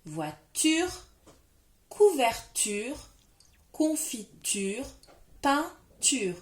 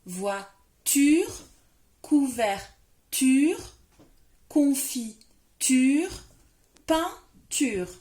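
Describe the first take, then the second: First: Some words drawn out slowly with a rising end; teacher saying the four words again with the child; words repeated clearly. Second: "ture" in "voiture, couverture, confiture, peinture" said louder and stretched very slowly; teacher getting the child to repeat the rhyme loudly and slowly; emphatic repetition. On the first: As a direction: say "couverture" and "confiture" slowly. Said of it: "On redit les quatre mots?". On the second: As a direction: hammer the ending "ture" loud and slow. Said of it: "Redis-le bien avec moi". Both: Shown as a demonstration.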